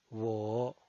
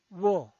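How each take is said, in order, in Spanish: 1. El tono baja hasta bajo y luego sube. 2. El tono cae de alto a bajo. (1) "desciende primero ... para ascender luego" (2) "El cuarto tono es un tono bajado"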